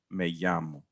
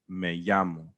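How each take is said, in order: No difference in how they are said.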